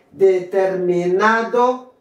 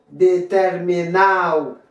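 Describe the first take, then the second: First: Determinado slowly with "-NA-do" sounded, rising; "Determinado" ending in a distinct "-ado"; full D. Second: Determinado said "de-ter-mi-NAO", falling; "determinado" with its last D silent; dropped D. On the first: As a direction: say Determinado in full, last D clearly heard. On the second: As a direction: slide A into O in determinado. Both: Shown as a demonstration. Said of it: "ou qu'à prononcer ou qu'à pas".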